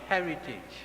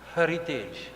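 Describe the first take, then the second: First: The first syllable sounds like 'heh'. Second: The first syllable sounds like 'hah' or 'huh'. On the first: It is the ordinary English word. The speaker calls it wrong. "not heritage" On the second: It is the institute's name, which includes Hari and TT for Trinidad and Tobago. The speaker calls it right. "H A R I T capital T capital E J"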